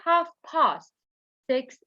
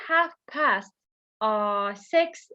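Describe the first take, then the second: First: It is said with a British accent. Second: It is said with an American accent. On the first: "we say half past six in British English. Even my voice have changed" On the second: "We say half past uh six in American English"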